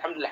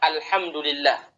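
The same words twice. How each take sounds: First: It is said quickly and slurred. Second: It is said slowly and clearly. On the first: The speaker calls it wrong. "Itu apa itu artinya?" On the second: The speaker calls it right. "Padahal yang ada"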